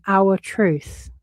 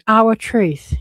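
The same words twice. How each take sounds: First: Said in the usual way. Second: Our truth said louder, with a mocking push on Our; sarcastic echo of his phrase, Our leaned on hard; mocking stress. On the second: Shown as a demonstration. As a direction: repeat Our truth with a sneer on Our. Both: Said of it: "He's saying this to Melissa Nathan".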